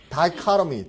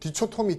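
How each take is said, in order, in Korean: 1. 'die'로 시작하고 'ka' 소리가 있어요. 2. 'dee'로 시작하고 단단한 'cho'가 있어요. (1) "다이카로미, 다이카로미. 그렇죠?" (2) "디초토미 아닌 것 같죠?"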